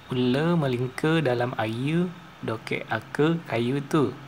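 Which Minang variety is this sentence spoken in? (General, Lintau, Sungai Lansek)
Lintau. The vowels sound heavier and further back. "Sementara bahasa Minang Lintau"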